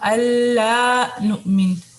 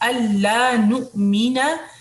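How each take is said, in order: First: The last word is cut short, dropping its final vowel. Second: The last word ends fully with a long vowel. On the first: The speaker calls it wrong. "अपनी टोन को फिट करने के लिए ना हम अल्लाह नुमिन ऐसे पढ़ देते हैं, तो ऐसे नहीं पढ़ना है" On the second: The speaker calls it right. "नुमीना है"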